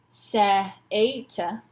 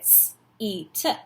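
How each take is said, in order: First: The E and A are said as two vowels. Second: The E and A make one long E. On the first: The speaker calls it wrong. "We don't say seata or se-ata" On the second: The speaker calls it right. "that's E, so we get s-eat"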